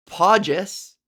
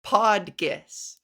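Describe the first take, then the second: First: Podgis said with a soft G, like "podjis". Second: Podgis with a hard G, like "pod-gis"; two syllables, hard G in Podgis. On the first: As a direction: mimic the wrong soft G in Podgis. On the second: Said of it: "it's pronounced". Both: Shown as a demonstration.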